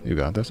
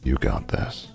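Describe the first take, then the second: First: The voice is pitched at its normal height. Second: The voice is pitched lower and deeper.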